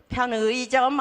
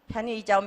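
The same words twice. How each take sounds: First: The middle vowel is the glide 'ui'. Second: The middle vowel is a plain 'i'. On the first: The speaker calls it wrong. "편의점 아니고" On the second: The speaker calls it right. "이렇게 발음하는 게 좋겠다"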